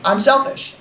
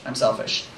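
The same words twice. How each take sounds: First: Said in the usual way. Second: Hushed confession; whispered aside. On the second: Acted. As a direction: whisper "I'm selfish" under breath.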